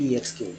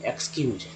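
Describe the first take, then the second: First: ई एक्स क्यू with a separate "ee" first; ई एक्स क्यू read out by letter names; wrong letter-by-letter reading. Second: एक्सक्यूज begun with a plain "eks"; एक्सक्यूज ending in a j sound; taught pronunciation. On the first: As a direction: say ई एक्स क्यू as "ee-eks-kyoo". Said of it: "ऐसा नहीं कहते हैं". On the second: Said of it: "इसको पढ़ते हैं". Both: Shown as a demonstration.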